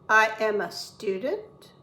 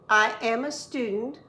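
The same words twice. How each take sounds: First: It ends with a rising, question tune. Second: It ends with a falling, statement tune.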